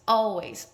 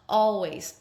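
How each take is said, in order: Both takes have the same delivery.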